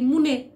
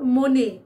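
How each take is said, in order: First: The first vowel sounds like 'u'. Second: The first vowel sounds like 'o'. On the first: The speaker calls it wrong. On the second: The speaker calls it right.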